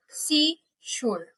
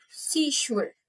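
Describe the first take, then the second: First: "seashore" split as sea, pause, shore; syllable by syllable. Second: Said in the usual way. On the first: Shown as a demonstration. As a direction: break "seashore" into two detached syllables. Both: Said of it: "I'm pronouncing it by syllables".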